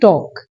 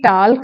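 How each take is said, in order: First: No L sound is heard before the final k. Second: An L sound is heard before the final k. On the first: The speaker calls it right. "इसमें एल silent है" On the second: The speaker calls it wrong. "टाल्क नहीं होता"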